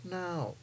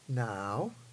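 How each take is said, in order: First: The pitch falls across the word. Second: The pitch rises across the word. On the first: "Dropped tone" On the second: "Rising tone"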